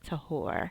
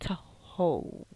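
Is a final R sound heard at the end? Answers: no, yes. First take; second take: yes; no. First: The word ends with a clear R sound. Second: The word ends without an R sound. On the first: "as we in English would say" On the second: "not as they're pronouncing the R"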